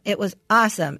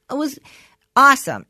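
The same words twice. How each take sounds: First: Said in the usual way. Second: A loud, higher burst of enthusiasm; excited. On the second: Retold or imitated. Son telling mom about his first therapy, bursting with excitement. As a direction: blurt it out thrilled. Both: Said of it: "and he goes".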